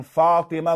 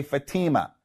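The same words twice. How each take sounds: First: Fatima stressed on a long first syllable; Arabic Fatima, long first vowel and short middle; Arabic pronunciation. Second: Fatima stressed on the middle syllable; anglicized Fatima with a long "ee"; anglicized pronunciation. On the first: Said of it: "instead of saying Fatima". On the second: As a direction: say Fatima the American way, "fa-TEE-ma". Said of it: "we anglicize them". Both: Shown as a demonstration.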